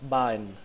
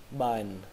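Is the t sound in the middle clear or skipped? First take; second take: skipped; skipped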